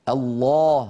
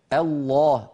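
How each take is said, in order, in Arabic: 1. اللام مفخمة، بصوت غليظ ممتلئ. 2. اللام مفخمة، بصوت غليظ ممتلئ.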